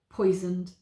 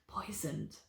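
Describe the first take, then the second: First: It is said in a normal voice. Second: It is said in a whisper.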